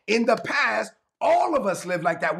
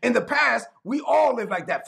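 First: Slightly more deliberate scripture reading; slow reading. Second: Said in the usual way. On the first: Shown as a demonstration. Preacher rereads the verse for the congregation, slow reading. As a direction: read the verse out a little slower. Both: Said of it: "let me read it slow".

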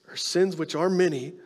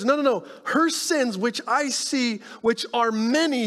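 First: Said in the usual way. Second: Jesus insisting. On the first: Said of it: "He says". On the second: Retold or imitated. Jesus correcting Simon about her sins, high and insistent. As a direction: firmly overrule the doubt. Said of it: "Jesus says".

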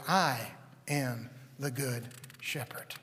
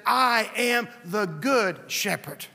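First: Slow unvoiced whisper of "I am the good shepherd"; the same claim now a quiet whisper, much softer. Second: "I am the good shepherd" said slow, every word weighed; slow, weighty declaration. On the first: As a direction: breathe it, slow and hushed. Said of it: "And he said". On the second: Acted. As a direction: lay it down slowly and solemnly. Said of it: "Jesus said".

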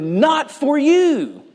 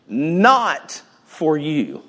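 First: You lifted high and drawn out slowly; slow, high emphasis on you; preacher's slow emphasis on you; stress on you. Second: Not drawn out slowly and falling; preacher's slow emphasis on not; stress on not. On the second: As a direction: lean hard on not, slowly. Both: Shown as a demonstration.

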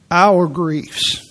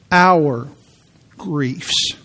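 First: Our griefs with Our leaned on and a rising lift; stress on our. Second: Said in the usual way. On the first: Shown as a demonstration. Preacher stressing Our to the congregation, stress on Our. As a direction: press hard on the word Our. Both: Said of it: "I keep emphasizing the word".

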